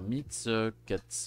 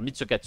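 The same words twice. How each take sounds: First: The phrase is said very slowly. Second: The phrase is said very fast. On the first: "Il peut aller très lentement" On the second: "il peut être un bâtard"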